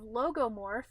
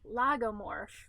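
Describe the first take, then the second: First: The first syllable sounds like 'loh'. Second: The first syllable sounds like 'lah'. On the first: The speaker calls it wrong. "I'd been saying that wrong the entire time" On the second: The speaker calls it right. "it's actually lagomorph"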